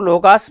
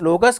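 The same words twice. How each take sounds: First: लोगास with a long aa in the second syllable, lo-gaas; long a pronunciation. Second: लोगस with a short, neutral second vowel, lo-gus; short a pronunciation. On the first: Teacher showing students one way to say लोगास, long aa. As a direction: stretch the second vowel of लोगास to a full aa. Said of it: "कुछ लोग लोगास भी कह देते हैं". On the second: Teacher showing students the other way to say लोगस, short vowel. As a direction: keep the second syllable of लोगस short and light. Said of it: "कुछ लोगस कह देते हैं". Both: Shown as a demonstration.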